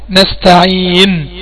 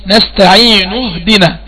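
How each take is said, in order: First: نستعين slowly ending on a silent nun; slow recited pause on نستعين with the nun held still; pausal form. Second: نستعين joined to اهدنا with the final nun voiced with damma, nastaʕīnu; slow recitation linking نستعين to اهدنا; joined reading. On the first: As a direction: stop on نستعين with sukun, no final vowel. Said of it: "لما أجي أقف فبقف بالسكون". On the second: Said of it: "عند الوصل طبعًا ما فيش سكون". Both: Shown as a demonstration.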